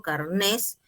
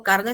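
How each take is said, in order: First: "carnés" stressed on NÉS; stress on last syllable. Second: "carne" stressed on CAR; stress on first syllable. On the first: Teacher means the university document, stressing NÉS in "carnés". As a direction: say "carnés" with the beat on the final syllable. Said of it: "se está refiriendo a ese documento universitario". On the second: Teacher contrasts food with document, stressing CAR in "carne". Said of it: "cuando digo carne se refiere a lo comestible". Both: Shown as a demonstration.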